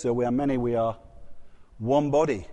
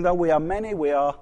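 First: Lower, measured liturgical recitation; intoned church response, lower; Anglican congregational response. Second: Said in the usual way. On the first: Shown as a demonstration. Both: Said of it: "you say it in the Anglican service".

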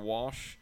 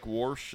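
First: Said in the usual way. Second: "warsh" said with an r slipped in before the sh; St. Louis warsh. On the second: Shown as a demonstration. Host demonstrating the St. Louis word, warsh with an r. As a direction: say "warsh" like wash with an added r. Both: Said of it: "instead of".

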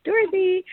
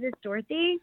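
First: Dorothy, high with a big rise like a question; uptalk. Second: Rising at the end like a question; uptalk. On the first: Shown as a demonstration. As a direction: ask your own name, pitched high. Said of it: "So it's a question". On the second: Real, not acted. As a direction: say your name as if asking. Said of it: "your voice goes up at the end".

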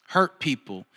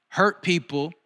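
First: "hurt people" lower, with a firm fall on "hurt"; falling conclusion. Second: "Hurt people" with a lifted, questioning rise on "Hurt"; rising first half. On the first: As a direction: land "hurt people" low and final. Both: Retold or imitated. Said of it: "the Holy Spirit spoke to me so clearly".

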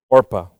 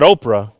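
First: "Orpah", carefully corrected; correct name Orpah. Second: "Oprah" as the common mistaken name; wrong name Oprah. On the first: Preacher corrects the congregation, saying "Orpah" carefully. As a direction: say "Orpah" as OR-pah, the r before the p. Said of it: "Not Oprah, Orpah". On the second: Preacher contrasts the wrong name, saying "Oprah". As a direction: say "Oprah" like the talk-show host, OH-prah. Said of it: "Not Oprah". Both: Shown as a demonstration.

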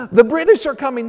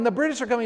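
First: Loud, high alarm cry, like a rider warning the town; Paul Revere's alarm call. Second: Echoing alarm call. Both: Retold or imitated. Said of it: "riding through New England going".

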